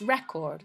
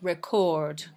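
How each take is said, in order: First: The stress is on the first syllable. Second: The stress is on the second syllable. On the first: It is used as a noun. "When it's a noun, it's" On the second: It is used as a verb. "when it's a verb, the stress is on the second syllable"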